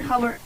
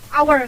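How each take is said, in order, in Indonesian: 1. Kata ini dimulai dengan bunyi h yang terdengar. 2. Kata ini dimulai dengan bunyi vokal, tidak ada h. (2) "tapi hanya tuh gak dibaca"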